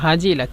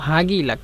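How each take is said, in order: First: The middle consonant is a j sound. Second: The middle consonant is a hard g sound. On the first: This is the original form. "মূলত হাজিলাক" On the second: This is how the regional dialect says it. "কিন্তু হাগিলাক"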